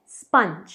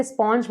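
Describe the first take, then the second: First: स्पंज as "spunj"; short "uh" vowel in स्पंज; correct pronunciation. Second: स्पंज as "sponj", with an o vowel; wrong pronunciation. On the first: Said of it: "ये है स्पंज". (स्पंज में छोटा "अ" बोलें) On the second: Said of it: "स्पंज मत कहिए". (स्पंज को "स्पॉन्ज" बोलें) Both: Shown as a demonstration.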